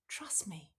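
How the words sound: It sounds warm and reassuring. The listener is being comforted and encouraged. The speaker calls it right. "with a voice of love and concern and compassion and encouragement"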